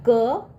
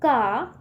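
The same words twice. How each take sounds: First: क with a short, unopened vowel; क without the long aa. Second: का with the mouth opened on long aa; का held as a long "kaa". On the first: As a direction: say क as a bare short "ka". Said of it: "जब मात्रा लगेगा तो मुंह खुलेगा ना". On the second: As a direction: open wide into का. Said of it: "मुंह खुलेगा ना". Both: Shown as a demonstration.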